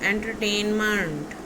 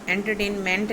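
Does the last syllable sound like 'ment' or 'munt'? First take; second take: munt; ment. First: The last syllable has a reduced vowel, 'munt'. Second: The last syllable has a full 'e' vowel, 'ment'. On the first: The speaker calls it right. "हमने उसको मंट बोलना है" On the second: The speaker calls it wrong. "नहीं"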